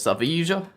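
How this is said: The name is said the Spanish way. "I lived in Spain for a while, and it is Sevilla"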